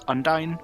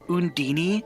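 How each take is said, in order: First: The name ends rhyming with 'dine'. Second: The name ends with an 'ee' sound. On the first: This is the speaker's own way of saying it. "that's just how I pronounce it" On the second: This is how the game's characters say it. "when the characters say this name, they call her Undini"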